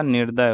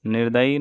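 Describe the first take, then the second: First: Said in the usual way. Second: निर्दयी ending in long "ee"; extra final ee. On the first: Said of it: "निर्दय होगा". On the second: Shown as a demonstration. Teacher showing the wrong form, निर्दयी with final ee. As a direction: add an ee to the end, निर्दयी. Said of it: "नहीं होगा".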